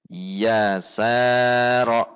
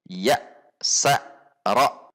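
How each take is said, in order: First: One of the syllables is drawn out longer. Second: The syllables are pushed out with abrupt jerks. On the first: "dipanjangkan salah satunya" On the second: "Contoh yang ada hentakan"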